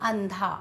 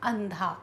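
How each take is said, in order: No difference in how they are said.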